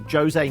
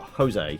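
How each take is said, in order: First: The name is said with a non-Spanish pronunciation. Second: The name is said with a Spanish pronunciation. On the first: The speaker calls it right. "So actually, Jose" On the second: The speaker calls it wrong. "not Jose. But he's not pronouncing it with a Spanish dialect"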